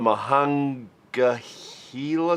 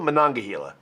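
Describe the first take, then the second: First: The word starts with 'Mah' and has 'hang'. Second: The word starts with 'Mon' and has 'nong'. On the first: The speaker calls it wrong. "I know I said it wrong" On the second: The speaker calls it right. "I think I said it right that time"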